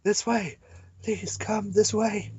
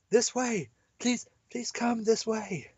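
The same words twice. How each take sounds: First: Put-on higher, slow girl calling; lightly voiced girl repeating. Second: Put-on higher, slow pleading girl; a hint of a young girl calling. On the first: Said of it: "Another voice quickly repeats". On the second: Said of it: "we can't do girl voices".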